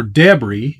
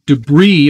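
First: Debris said as DEB-ree, stress up front; F1-style pronunciation. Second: Said in the usual way. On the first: Shown as a demonstration. Streamer showing viewers the F1 way, debris said DEB-ree. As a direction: say debris with a short DEB first, then ree. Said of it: "as they say in F one". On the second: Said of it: "or debris, as they say".

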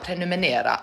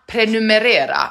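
First: "Prenumerera" quickly as "pre-nu-me-NE-ra", N for R; mispronounced prenumerera. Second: "prenumerera" higher and firm as "pre-nu-me-RE-ra"; correct pronunciation. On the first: Streamer quoting own mistake, saying "Prenumerera" as "prenumenera". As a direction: say "Prenumerera" softly with a wrong N: "prenumenera". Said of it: "vad säger jag?". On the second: Streamer getting it right, stressing "prenumerera" with double R. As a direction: say "prenumerera" with a clear R in place of N. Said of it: "Ah, okej". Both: Shown as a demonstration.

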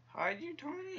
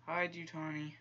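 First: Very high, squeaky plea; desperate urging. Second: Slightly raised, insistent command; mildly insistent order; urging. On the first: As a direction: voice shoots way up at the end. Pleading as character won't hide. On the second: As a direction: urge a character to hide, voice a little higher. Urging game character to hide. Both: Real, not acted.

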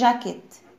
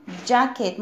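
First: "jacket" with a soft zh, no d at the start; mispronounced soft J. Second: "jacket" with a hard j, a light d before it; correct J sound. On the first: Teacher warning kids what not to say, "jacket" with soft zh. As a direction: begin "jacket" like French "je", the mistake to avoid. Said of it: "ما اقولش". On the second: Teacher showing how J is pronounced, "jacket" with dj at the start. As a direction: start "jacket" on a firm English "dj". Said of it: "بنطقها ازاي؟". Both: Shown as a demonstration.

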